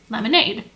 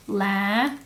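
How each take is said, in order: First: Lemonade said whole and smooth, blended back together; teacher blends lemonade back into one word for the kids. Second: Put-on teacher segments lemonade for the kids, syllable by syllable; syllable-split lemonade. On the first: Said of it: "putting them together". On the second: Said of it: "So they would say". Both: Shown as a demonstration.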